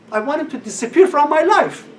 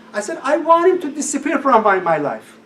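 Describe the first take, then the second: First: Higher and louder wish; emphatic wish. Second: "I want him to disappear from my life" with the stress on "want", louder and higher; stressed wish. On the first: Retold or imitated. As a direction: press the wish hard. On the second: Shown as a demonstration. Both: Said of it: "Listen to these words".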